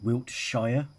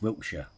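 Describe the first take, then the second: First: It is said the American way, parts separated. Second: It is said the British way, run together. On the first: "in America they pronounce it Wilt, Wilt, Wiltshire" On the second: "Wiltshire in England is Wiltshire"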